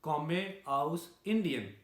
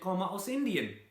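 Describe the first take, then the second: First: It is said with a strong Indian accent. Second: It is said with a German-like accent. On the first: The speaker calls it wrong. "Avon में था तो मैं बोलता था" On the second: The speaker calls it right. "German उसको कैसे बोलते हैं, तो वो बिल्कुल चेंज हो गया"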